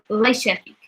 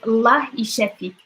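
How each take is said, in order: First: The first word is shortened to La. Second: The first word is said in full as Allah.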